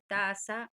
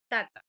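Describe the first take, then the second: First: The middle consonant is an s-like sound. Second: The middle consonant is a t sound. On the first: The speaker calls it right. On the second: The speaker calls it wrong.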